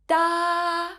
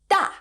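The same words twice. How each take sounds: First: The pitch stays high and level throughout. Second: The pitch falls sharply from high to low. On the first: "is a high flat tone. It sounds like this" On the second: "has a falling tone"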